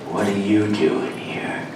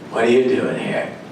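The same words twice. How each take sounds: First: It is said quietly with a suspicious tone. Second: It is said in a plain, neutral way.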